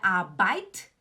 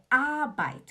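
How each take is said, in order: First: The stress is on the second syllable. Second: The stress is on the first syllable. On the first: The speaker calls it wrong. "Não é Arbeit" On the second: The speaker calls it right. "O tom tá no A"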